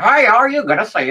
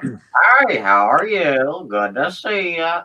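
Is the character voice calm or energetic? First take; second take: energetic; calm. First: The voice is lively, rambunctious and energetic. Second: The voice is calmer and less energetic. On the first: The character's voice has fully evolved. "now he's my most rambunctious character" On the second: The character's voice had not yet developed. "you weren't, crazy. But you also weren't used to the voice yet"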